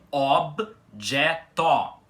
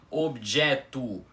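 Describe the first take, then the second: First: Both O vowels are said open. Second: The final O sounds like U. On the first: The speaker calls it right. "com os dois Os da palavra abertos" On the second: The speaker calls it wrong. "com o O final com som de U"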